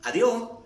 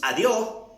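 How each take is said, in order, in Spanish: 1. Se dice con acento costeño ecuatoriano. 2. Se dice con acento costeño ecuatoriano.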